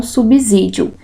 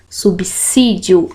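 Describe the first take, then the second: First: Subsídio mispronounced with a buzzing Z after the b; wrong-way subsídio, second s voiced like z; subsídio with Z sound. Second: Subsídio said slowly with a crisp S after the b; subsídio pronounced sub-SSÍ-dio, unvoiced s; subsídio with S sound. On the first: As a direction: say subsídio as sub-ZÍ-dio. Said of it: "e não subsídio". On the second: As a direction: say subsídio slowly, second s as in "sapo". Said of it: "O correto é o som de S". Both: Shown as a demonstration.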